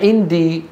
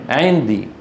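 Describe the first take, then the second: First: The first consonant is a glottal stop. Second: The first consonant is a pharyngeal sound. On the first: The speaker calls it wrong. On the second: The speaker calls it right.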